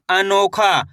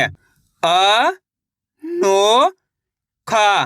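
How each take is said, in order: First: Said in the usual way. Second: अ, नो, खा drawn out separately, the first two rising; syllable by syllable. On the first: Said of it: "तो मिलके बन जाएगा". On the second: Shown as a demonstration. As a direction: sound out अ, नो, खा with long gaps. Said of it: "एक बार फिर से देखिए". (अ, नो, खा अलग-अलग खींचकर)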